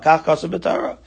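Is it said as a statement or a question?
statement. It is said as a plain statement.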